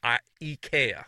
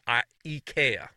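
First: It is said the Swedish way. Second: The same.

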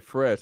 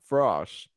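First: The vowel is a plain 'eh' sound. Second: The vowel is an open 'aw' sound. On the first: "He don't say fresh"

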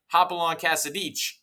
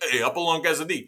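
First: It is said in a polished, neutral accent. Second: It is said in a strong New Jersey accent.

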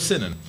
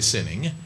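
First: The word ends with a clipped 'in' sound. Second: The word ends with a full 'ing' sound. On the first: "I say in" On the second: "I don't say sinning. I don't say ing"

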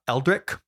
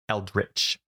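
First: The word ends with a hard k sound. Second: The word ends with a ch sound. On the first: The speaker calls it wrong. "They are not Eldric modifiers. Like our buddy Eldric" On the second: The speaker calls it right. "They are Eldritch"

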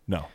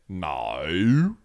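First: It is said short in a plain accent. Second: It is drawn out in a New Zealand accent.

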